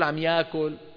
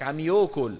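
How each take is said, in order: First: The verb starts with an 'a' sound, like ya'kul. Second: The verb starts with an 'o' sound, like yokol. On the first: This is the form the regional speakers do not use. "ما بيقول عم يأكل" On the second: This is the regional pronunciation. "شلون بيلفظها؟ واو"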